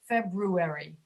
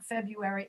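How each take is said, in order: First: The r after the b is pronounced. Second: The r after the b is dropped. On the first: The speaker calls it right. "it's February. Like brew" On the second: The speaker calls it wrong. "It's not February"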